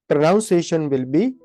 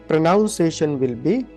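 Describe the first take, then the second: The two takes are said the same way.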